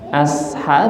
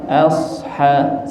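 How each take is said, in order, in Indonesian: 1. Bunyi s biasa dan ringan. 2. Bunyi s berat dan emfatis. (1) "Asha biasa" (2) "asha so"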